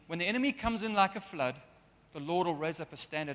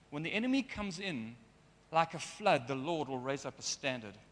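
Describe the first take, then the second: First: The pause comes right after the word flood. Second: The pause comes right after the words comes in. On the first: The enemy arrives like a flood. The speaker calls it wrong. "instead of that verse meaning" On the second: The Lord comes like a flood against the enemy. The speaker calls it right. "it actually should read"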